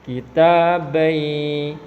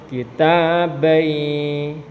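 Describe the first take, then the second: Both takes have the same delivery.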